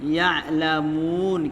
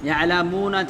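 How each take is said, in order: First: The word ends cut off on the 'n' sound. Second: The word ends with a final 'a' vowel. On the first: "জাবারকে হটিয়ে দিয়ে সুকুন করে থামতে হবে" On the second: "লাস্টে যদি জাবার থাকে"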